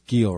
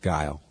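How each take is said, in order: First: The name is said with an 'ee' vowel. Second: The name is said with an 'eye' vowel. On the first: The speaker calls it wrong. "And then he mispronounced it" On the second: The speaker calls it right. "no, it's Guile. Like [name]'s band"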